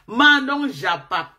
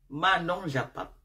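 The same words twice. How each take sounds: First: Manon japa called out slowly and louder, stress on Manon. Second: Said in the usual way. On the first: Shown as a demonstration. (appel lent et appuyé sur Manon) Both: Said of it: "on fait le japa".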